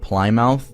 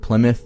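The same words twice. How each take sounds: First: The name is read out as spelled. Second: The name is said the accepted way. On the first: The speaker calls it wrong. "and not Plymouth" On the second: The speaker calls it right. "I said Plymouth"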